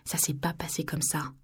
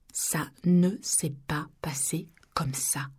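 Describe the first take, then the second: First: Said in the usual way. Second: "Ça ne s'est pas passé comme ça" very slow, each word set apart; emphatic word-by-word denial. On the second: A narrator's reading. Narrator denying the accusation, every word slowly separated.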